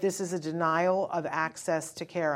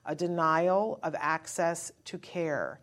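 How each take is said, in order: First: It is said at a normal pace. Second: It is said slowly and deliberately.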